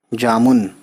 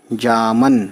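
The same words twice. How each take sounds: First: जामुन with a short u in the last syllable; variant with pesh. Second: जामन with a short a in the last syllable; variant with zabar. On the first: Teacher shows the other local pronunciation, pesh variant. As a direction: say जामुन ending in "-mun". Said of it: "मुन बोलते हैं तो पेश आएगा". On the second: Teacher shows how some people say the fruit's name, zabar variant. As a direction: say जामन ending in "-man". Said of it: "कुछ लोग जामन बोलते हैं". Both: Shown as a demonstration.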